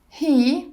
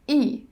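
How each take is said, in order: First: The word is said in full with its h. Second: The word is said without its h sound. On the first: "He becomes E" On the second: "We drop the H"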